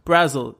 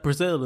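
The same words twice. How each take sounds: First: "Brazil" with stress up front, as BRAZ-ul; BRAZ-il pronunciation. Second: "Brazil" stressed on the second syllable; bruh-ZIL pronunciation. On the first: Host echoes co-host's pronunciation, "Brazil" said as BRAZ-ul. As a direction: say "Brazil" to rhyme with dazzle. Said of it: "I would pronounce it as Brazil". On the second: Host says some people pronounce it so, "Brazil" as bruh-ZIL. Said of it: "some people who pronounce that Brazil". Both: Shown as a demonstration.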